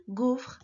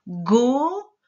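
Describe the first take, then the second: First: Said in the usual way. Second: GAUFRE split into a long GO and long FRRE; sounded-out word. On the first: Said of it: "Il y avait d'abord une gaufre". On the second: Shown as a demonstration. Teacher sounding out a word with gestures, very drawn-out. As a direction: stretch every sound of GAUFRE, rolling out the FR. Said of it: "Je te fais les gestes".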